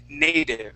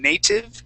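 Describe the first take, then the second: First: The middle consonant is a soft D sound. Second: The middle consonant is a clear T sound. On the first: The speaker calls it right. "taking that that T and turning that into a D sound" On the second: The speaker calls it wrong. "instead of saying native"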